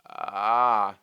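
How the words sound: The vowel starts with a creaky, crackling fry. "There is a vocal fry where we start with fry"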